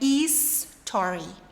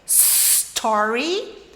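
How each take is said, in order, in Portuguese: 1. Não começa diretamente com s. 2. Começa diretamente com o som de s. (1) "não é story" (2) "a pronúncia certa é story"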